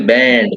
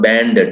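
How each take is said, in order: First: The word is said as one syllable. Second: The word is said with an extra syllable. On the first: The speaker calls it right. "officially banned" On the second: The speaker calls it wrong. "not banded"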